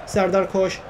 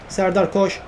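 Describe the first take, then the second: No difference in how they are said.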